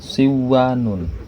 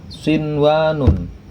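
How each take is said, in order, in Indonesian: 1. Bunyi n menyatu dengan w yang mengikutinya. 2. Bunyi n diucapkan dengan jelas sebelum w. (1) "bukan siwanun" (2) "Nun matinya dibaca tetap menjadi nun mati"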